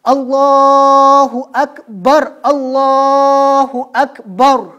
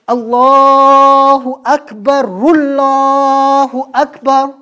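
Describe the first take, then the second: First: The phrases are separated by a stop between them. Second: The phrases run together without a stop between them. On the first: The speaker calls it right. "वक्फ वक्फ के साथ" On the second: The speaker calls it wrong. "आप कभी ये नहीं कह सकते ... ऐसे नहीं अजान देनी"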